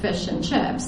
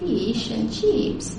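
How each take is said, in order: First: The vowels are said in a non-Australian way. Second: The vowels are said in an Australian way. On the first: "they don't say fish and chips" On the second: "you can tell an Australian because they say"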